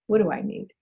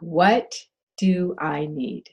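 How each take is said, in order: First: It is said at a normal pace. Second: It is said slowly and deliberately.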